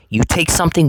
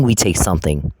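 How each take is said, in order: First: "You take something" with a lift on "something"; rising stress on "something", answered in the next line; stress on you versus we. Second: "we take something" with "we" hit and a falling tune; lower, pointed stress on "we". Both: Real, not acted.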